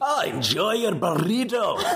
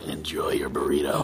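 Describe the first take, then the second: First: It is said in a Scottish accent. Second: It is said in Castiel's voice.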